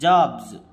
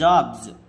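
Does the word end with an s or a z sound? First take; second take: z; z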